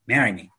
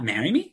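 First: It sounds like a firm, commanding instruction. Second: It sounds like an unsure, questioning request. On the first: It is an instruction. The speaker calls it right. "it's marry me. Because the eyebrows go down, not up" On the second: It is a speculation or a request. The speaker calls it wrong. "It's not marry me"

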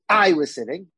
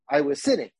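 First: The stress is on "I". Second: The stress is on "sitting".

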